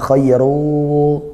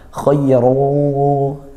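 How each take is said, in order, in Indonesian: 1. Akhirannya tidak ada dengung sengau. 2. Akhirannya berdengung lewat hidung. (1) "bukan khayru seperti itu" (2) "bunyi sengaunya ... di hidung"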